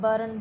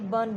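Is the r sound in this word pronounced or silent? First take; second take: pronounced; silent. First: The r sound is clearly pronounced. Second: The r sound is left silent. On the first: The speaker calls it wrong. "हम mostly इसको क्या बोलते हैं, बर्न बोलते हैं" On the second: The speaker calls it right. "आर की क्या होगी यहाँ पर साउंड नहीं हो बोली जाएगी, बर्न बोला जाएगा"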